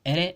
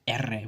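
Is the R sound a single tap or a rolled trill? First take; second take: tap; trill. First: The R is a single quick tap. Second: The R is a long rolled trill. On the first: "a tap" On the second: "a trill"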